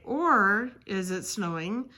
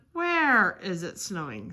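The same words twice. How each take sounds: First: "Or" drawn out and emphasized; "Or" held long to mark the mistake; stress on OR. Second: "Where" stretched and emphasized; "Where" held long as the intended word; stress on WHERE. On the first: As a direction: lean slowly on the word "Or". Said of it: "if you forget the accent". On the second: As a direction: lean hard on the word "Where". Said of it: "instead of". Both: Shown as a demonstration.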